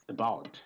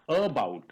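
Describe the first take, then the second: First: The first vowel is a short reduced schwa. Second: The first vowel is a full open vowel. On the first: The speaker calls it right. "it's about. ... it is half a" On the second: The speaker calls it wrong. "It's not about"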